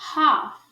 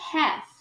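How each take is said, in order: First: British accent, with a broad open 'a' vowel. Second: American accent, with a vowel close to 'e'. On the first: "em sotaque britânico... a gente fala A, como está escrito" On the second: "no sotaque americano... mas a gente pronuncia E"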